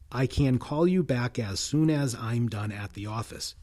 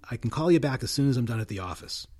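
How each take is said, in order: First: Function words are given their full forms. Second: Function words are reduced to weak forms. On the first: The speaker calls it wrong. "without the weak forms of function words" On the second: The speaker calls it right. "Fast again"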